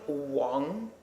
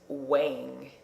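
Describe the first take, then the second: First: It is said with a Chinese pronunciation. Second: It is said with an American pronunciation.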